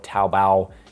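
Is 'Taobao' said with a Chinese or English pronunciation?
Chinese. It is said with a Chinese-style pronunciation.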